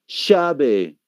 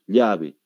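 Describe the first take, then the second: First: It is said with an Argentine accent. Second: It is said with a local Bolivian accent. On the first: "El argentino no va a decir llave, ¿qué va a decir?" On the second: "aquí decimos llave, así es como decimos nosotros"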